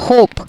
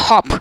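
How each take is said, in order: First: Hope said with a long o glide, "hohp"; teacher shows the long vowel. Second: Hop said with a short clipped o; teacher shows the short vowel. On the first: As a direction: stretch the o in hope. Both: Shown as a demonstration. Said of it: "It is not hop".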